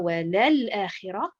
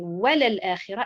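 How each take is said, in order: First: The stress is on the second syllable, la. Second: The stress is on the first syllable, wa. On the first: The speaker calls it wrong. "et non pas" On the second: The speaker calls it right. "donc c'est"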